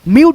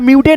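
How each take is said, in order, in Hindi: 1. शब्द t की ध्वनि पर खत्म होता है। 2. t के बाद एक अतिरिक्त स्वर की ध्वनि आती है। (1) "म्यूट हो जाएगा" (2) "म्यूटे नहीं पढ़ेंगे"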